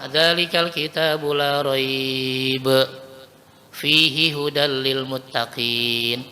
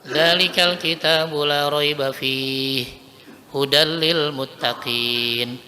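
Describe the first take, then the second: First: There is a pause after la raiba only. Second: There is a pause after fihi only.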